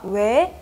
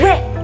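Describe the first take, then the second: First: It sounds like a genuinely curious question. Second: It sounds like a scolding, threatening refusal.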